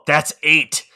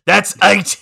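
First: A bit louder, acting the line; first push of the movie line; punchy recited quote; raised voice. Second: Higher and louder, topping the first take; escalated recited yell; louder shout. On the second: Retold or imitated. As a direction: hammer it home a second time. Repeating it harder.

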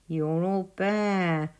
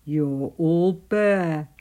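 First: Slow, drawn-out animal taunt; lightly mocking storybook creature; teasing Weasel. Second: Slow, loud gruff animal bark; loud, drawn-out storybook bark; barking Badger. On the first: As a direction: tease slowly in a put-on weasel voice. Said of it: "teased Weasel". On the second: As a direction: boom it out slowly, like a blunt badger. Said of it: "barked Badger". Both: A narrator's reading.

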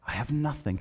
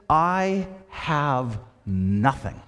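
First: Soft solemn close. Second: Slow solemn statement. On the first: Jesus repeats, softer. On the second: Jesus voiced, solemn. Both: Acted.

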